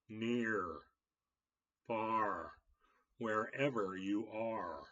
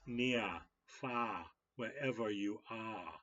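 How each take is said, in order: First: The R sounds at word ends are clearly pronounced. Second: The R sounds at word ends are dropped. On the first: "for American English, to pronounce your R" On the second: "in Britain, they might say"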